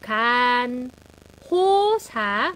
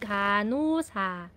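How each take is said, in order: First: Said syllable by syllable with the h sound. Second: Said as one smooth word without the h. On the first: "pag per syllable" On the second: "pero yung buong word"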